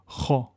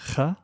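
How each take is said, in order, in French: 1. Le son kh est lourd et emphatique. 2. Le son kh est léger et fin. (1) "elle est amplifiée, elle est emphatique" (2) "Je ne dis pas kha"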